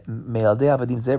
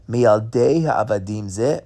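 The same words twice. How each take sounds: First: Said in the usual way. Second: "Mialdei Ha'avadim Zeh" drawn out slowly with a rising end; slow emphatic reading. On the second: Shown as a demonstration. To the class, savouring the Chida's verse, slow and emphatic. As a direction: lean on "Mialdei" and let it rise.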